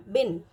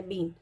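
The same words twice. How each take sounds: First: बिन with a short इ; बिन, keep the इ short; short i in bin. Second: बीन with a long ई; long ee in been. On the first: Teacher contrasting बिन with a short इ. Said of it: "छोटी ई की मात्रा लगाती हूँ". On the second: Teacher showing the long ई in बीन. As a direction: hold the ई in बीन. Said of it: "ये क्या है". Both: Shown as a demonstration.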